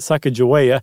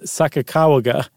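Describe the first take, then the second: First: The third syllable starts with a j sound. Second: The third syllable starts with a hard g sound. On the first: The speaker calls it wrong. "it's not Sacagawea" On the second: The speaker calls it right. "it's not ja, it's ga"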